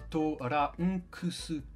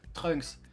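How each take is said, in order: First: It is said in four syllables, To-ran-ku-su. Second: It is said as one short syllable, Trunks. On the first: "En japonais, il s'appelle Torankusu" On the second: "Chez nous, tout le monde est d'accord qu'il s'appelle Trunks"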